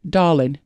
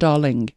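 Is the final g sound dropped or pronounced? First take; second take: dropped; pronounced. First: The final g sound is dropped. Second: The final g sound is pronounced. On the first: "No G on the end" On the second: "not darling"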